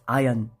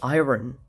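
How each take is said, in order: First: The R sound is not pronounced. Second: The R sound is clearly pronounced. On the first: The speaker calls it right. "No, it's iron" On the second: The speaker calls it wrong. "I used to say iron, ... there is an R"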